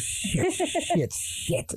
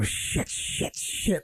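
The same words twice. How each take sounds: First: Put-on high, soft child's muttered curse; little girl copying dad. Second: Under-the-breath swearing, softer; muttered curse. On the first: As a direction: mimic dad's mutter in a kid's voice. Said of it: "the same mannerisms goes". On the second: Retold or imitated. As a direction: mutter it in annoyance. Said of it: "he'd always go".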